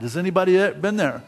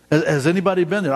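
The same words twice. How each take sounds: First: Said in the usual way. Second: Urging the crowd to answer, faster; pressing the question faster. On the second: Real, not acted. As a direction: push it again, faster, stress anybody.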